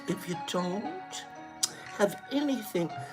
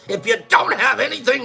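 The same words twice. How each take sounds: First: It is said in a gentle, kind tone. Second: It is said in a harsh, mean tone. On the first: It is friendly advice. "Why can't it just kind of be like" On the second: It is a scolding. "she always said it like this"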